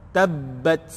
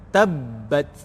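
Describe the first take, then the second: No difference in how they are said.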